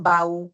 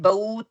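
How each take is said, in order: First: The vowel before the w is a clear open a. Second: The vowel before the w is short and clipped. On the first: The speaker calls it right. "आपने हरका का टाइम देना है" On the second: The speaker calls it wrong. "Normally हम कहते हैं बऊ तऊ सऊ, नो"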